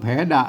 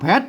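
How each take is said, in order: First: The word ends in an open vowel. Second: The word ends in a t sound. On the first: The speaker calls it wrong. "อันนี้ก็อ่านไม่ใช่แผดะ" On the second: The speaker calls it right. "อ่านว่าแพท"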